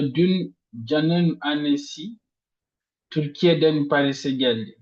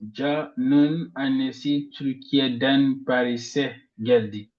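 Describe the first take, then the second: First: The stress falls on the word annesi. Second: The stress falls on the word Paris'e. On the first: It was his mother, not someone else. "on met l'intonation sur la mère de Jean" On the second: She came to Paris, not somewhere else. "on met ici l'intonation sur Paris"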